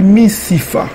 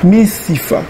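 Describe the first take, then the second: First: The consonant before the last vowel is f. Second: The consonant before the last vowel is f.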